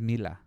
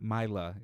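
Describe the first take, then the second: First: The name is said with a Spanish pronunciation. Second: The name is said with an English pronunciation. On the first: "Like in Spanish" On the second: "not Mila in English"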